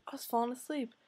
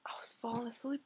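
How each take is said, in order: First: Said in the usual way. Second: Drowsy near-whisper, much softer; acting out dozing off over the books; sleepy whisper.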